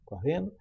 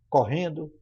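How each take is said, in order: First: The final syllable drops its d sound. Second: The final syllable keeps its d sound. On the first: The speaker calls it wrong. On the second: The speaker calls it right.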